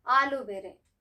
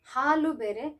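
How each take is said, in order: First: ಹಾಲು ಬೇರೆ with ಹಾಲು said as "aalu"; ಹಾಲು opened on a bare vowel, as in aloo; no H sound. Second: ಹಾಲು ಬೇರೆ with a clear H starting ಹಾಲು; ಹಾಲು opened on a distinct "haa"; sounded H. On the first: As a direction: drop the H, so ಹಾಲು starts on "aa". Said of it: "Aloo is called as ಆಲೂಗಡ್ಡೆ". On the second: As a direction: say ಹಾಲು as "haalu", H fully breathed. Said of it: "ಹಾಲು ಅಂತಂದ್ರೆ milk". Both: Shown as a demonstration.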